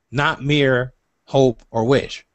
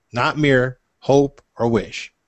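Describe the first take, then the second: Both takes have the same delivery.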